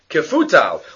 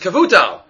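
First: The middle consonant is an f sound. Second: The middle consonant is not an f sound. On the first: This is the mistaken reading. The speaker calls it wrong. "He said it with a fe" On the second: This is the corrected reading. The speaker calls it right. "it's Kavutal"

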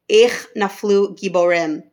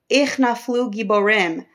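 First: It is said in a sad, heartbroken tone. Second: It is said in a joyful, rejoicing tone. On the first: The fall of the mighty is mourned. "David's sad, heartbroken tone" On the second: The fall of the mighty is celebrated. "the people are saying it in a rejoiceful manner"

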